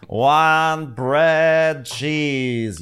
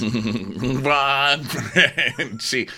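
First: Slow, drawn-out ghost moan; ghostly wail. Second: Slow ghost moan through laughter; laughing ghost voice. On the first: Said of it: "you'll just hear my ghost yelling that". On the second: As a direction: wail it while cracking up. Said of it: "The ghost of Christmas always". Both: Pretend.

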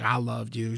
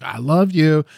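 First: Soft retold endearment; husband's tender line. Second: Higher-pitched imitated endearment; wife's tender reply. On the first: Jaguar Paw chills with his wife, quietly loving. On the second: Wife answers her husband, lightly imitated and loving. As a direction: echo it back in a raised, lightly voiced wife's pitch.

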